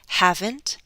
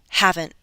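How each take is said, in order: First: The T is released as a full T. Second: The T is a glottal stop. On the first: "listen to the true T" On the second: "Glottal stop"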